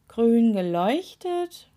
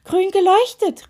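First: Slow, drowsy questioning echo; tired. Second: High, loud excited shout; suddenly wide awake. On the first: Weary witch repeating the toe's claim, tired. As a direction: drag the words out sleepily. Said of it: "wiederholte Miep Miep müde". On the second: Witch suddenly realising what glows, shouting wide awake. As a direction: burst out, startled fully awake. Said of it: "rief sie plötzlich hellwach". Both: A narrator's reading.

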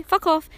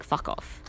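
First: Higher and louder, fed up; imitating an exasperated outburst; louder fuck off. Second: Under the breath, softer; imitating a bitter grumble; muttered fuck off. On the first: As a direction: throw it out with exasperation. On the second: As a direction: mutter it as a private curse. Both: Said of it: "you're like".

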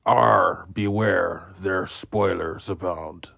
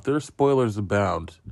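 First: Lightly growled pirate talk; a quick hammy pirate. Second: Said in the usual way. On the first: Pretend. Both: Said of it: "talking like a pirate".

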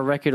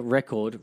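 First: "record" with a reduced second syllable, like REK-uhd; accented "record". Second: "record" with a full second syllable, REK-cord; careful "record". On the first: Host checks how "record" sounds in his accent, ending "-uhd". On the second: Host corrects himself to a fully sounded "record", REK-cord. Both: Shown as a demonstration. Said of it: "with my accent".

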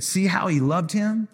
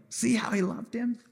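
First: Said in the usual way. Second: Higher and softer, moved; tender repeat. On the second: Shown as a demonstration. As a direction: say it again, touched and tender.

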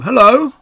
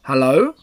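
First: High, loud, questioning hello; Pooh greeting. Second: Strange animal replying. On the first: Pooh calls to the unknown visitor, high loud greeting. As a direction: call out a bright-pitched, rising hello. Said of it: "said Pooh". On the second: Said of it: "said the strange animal". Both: A narrator's reading.

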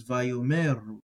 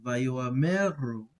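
First: Vayomeru with the aleph silent, vo-me. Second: Vayoameru with the aleph sounded, o-a; Aleph pronounced. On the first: Teacher contrasting the silent aleph, Vayomeru with aleph dropped. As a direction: glide straight over the aleph in Vayomeru. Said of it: "where it's silent". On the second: Teacher showing the pronounced aleph, then Vayoameru with aleph sounded. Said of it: "it would be something like". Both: Shown as a demonstration.

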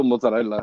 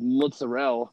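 First: Mozzarella in an Italian accent, every vowel sounded to the final a; Italian pronunciation. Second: Mozzarella in Italian American style, final a dropped; Italian American pronunciation. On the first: Shown as a demonstration. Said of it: "Because that's the word". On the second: Retold or imitated. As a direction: imitate Italian American "mozzarella", ending on a stressed "rell". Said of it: "like the Goodfellas version of saying it".

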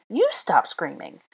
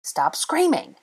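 First: Slow retort leaning on "You"; stress on YOU. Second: High-pitched irritated command; exasperated order. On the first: Throwing the order back, stress on "You". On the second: One of the quarrelling pair scolding, exasperated. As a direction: order her to stop, voice raised in pitch. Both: A narrator's reading.

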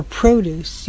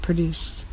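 First: Produce stressed on PRO with a long O; produce, first syllable stressed; noun produce. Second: Produce stressed on DUCE, quick weak first vowel; produce, second syllable stressed; verb produce. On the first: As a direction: say produce as PROH-dooce. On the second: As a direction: say produce as pruh-DOOCE. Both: Shown as a demonstration. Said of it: "You hear the difference?".

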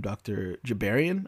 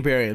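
First: Jabarian said starting with J; wrong name. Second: Gabarian with a hard G; corrected name. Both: Real, not acted. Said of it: "Gabarian with the G".

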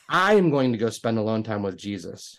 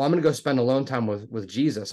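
First: "I" stretched and punched, then the rest evenly; stress on I. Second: Said in the usual way. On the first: Retold or imitated. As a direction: lean hard on "I" to correct the listener. Retold correction of who is going.

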